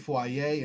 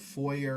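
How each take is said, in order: First: The word is said with an unusual pronunciation. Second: The word is said the common American way. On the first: This is the speaker's own habit. "I tend to say foyer" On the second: This is how most Americans say it. "instead of foyer"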